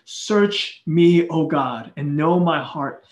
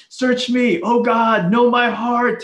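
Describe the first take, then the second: First: Said in the usual way. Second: Louder, higher cry of "Search me, oh God"; raised, pleading shout to God; screaming it out. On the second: Shown as a demonstration. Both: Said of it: "He's, like, screaming this out loud".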